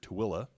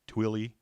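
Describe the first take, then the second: First: The name is said the way locals say it. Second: The name is said the way outsiders say it. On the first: People who live in the area say it this way. "we say it here" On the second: Someone from outside the area would say it this way. "most people not from our area are going to name this"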